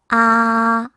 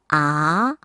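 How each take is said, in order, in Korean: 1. 이 음절은 일 성으로 소리 냅니다. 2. 이 음절은 이 성으로 소리 냅니다. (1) "일 성" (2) "이 성"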